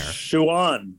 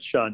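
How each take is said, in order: First: The name sounds like 'Schwan'. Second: The name sounds like 'Sean'. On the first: The speaker calls it right. "Schwan, not Sean" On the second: The speaker calls it wrong. "not Sean"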